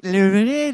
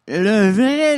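First: "vrai" ditekan lagi dengan nada naik; stress on vrai. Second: "vrai" ditekan keras dan tinggi; stress on vrai. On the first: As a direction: hit "vrai" again with a rising end. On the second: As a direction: punch "vrai" loud and high. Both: Shown as a demonstration.

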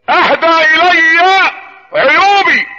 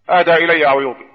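First: High, extremely slow preacher's recitation; ringing proclamation. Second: Said in the usual way. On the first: Real, not acted. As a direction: stretch "اهدى الي عيوبي" out high and strong. Inscription repeated as ringing proclamation. ("اهدى الي عيوبي" بإلقاء عالي وممدود جدًا)

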